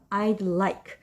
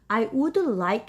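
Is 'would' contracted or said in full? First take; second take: contracted; full. First: The word would is shortened to a d. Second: The word would is said in full. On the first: "would를 줄여서 I'd like 해도 됩니다" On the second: "I would like 해도 괜찮고요"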